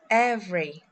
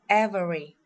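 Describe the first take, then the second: First: The middle vowel is dropped, leaving two syllables. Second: Every vowel is pronounced, with three full syllables. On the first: The speaker calls it right. "we will skip the vowel" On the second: The speaker calls it wrong. "We don't pronounce"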